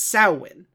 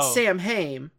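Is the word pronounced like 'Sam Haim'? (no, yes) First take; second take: no; yes. First: It is not pronounced like 'Sam Haim'. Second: It is pronounced like 'Sam Haim', as spelled. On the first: The speaker calls it right. "The correct pronunciation" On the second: The speaker calls it wrong. "isn't Sam Haim"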